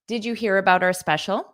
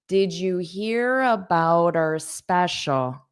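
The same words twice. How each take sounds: First: The sentence is spoken at a fast pace. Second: The sentence is spoken at a slow pace. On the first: "So that was said at a fast pace" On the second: "Now let me say it slower"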